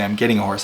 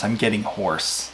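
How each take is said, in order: First: "horse" said as the animal, with "a" before it; the misheard line "I'm getting a horse"; mock quote of the wrong words. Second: "hoarse" said slowly and deliberately, with no "a" before it; slow "I'm getting hoarse" to set the record straight; spelling out "hoarse" clearly; careful correction. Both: Shown as a demonstration. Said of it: "You did not hear me say".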